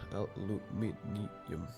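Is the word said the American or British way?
British. It is said the British way, five syllables.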